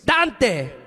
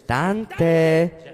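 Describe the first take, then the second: First: It is said in an upset, scolding tone. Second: It is said in a calm, ordinary tone.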